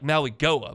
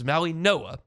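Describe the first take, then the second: First: The last part starts with a G sound. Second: The last part starts with an N sound. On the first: The speaker calls it wrong. "It looks like" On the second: The speaker calls it right. "but it's"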